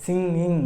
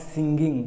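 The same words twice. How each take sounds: First: Singing with ng only, no g; correct ng. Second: Singing said slowly with a hard g, sin-ging; wrong way. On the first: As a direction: model singing cleanly. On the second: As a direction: show the mistaken singing. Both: Shown as a demonstration. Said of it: "It is not singing".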